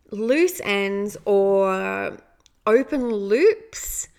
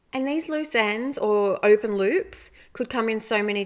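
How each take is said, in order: First: "loose ends" and "open loops" stretched slow and louder; slow emphasis. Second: Said in the usual way. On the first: Real, not acted. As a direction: lean hard on "loose ends or open loops", drawing each word out. Slowly stressing key phrase.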